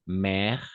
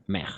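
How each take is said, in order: First: Mer with an open Spanish E, the wrong way. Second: Mer with a held-back French È, the right way. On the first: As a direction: show the mistake in mer. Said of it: "Y no decimos mer". (mer con E abierta, mal dicha) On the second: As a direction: model the correct mer. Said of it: "sino decimos mer". (mer a la francesa, bien dicha) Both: Shown as a demonstration.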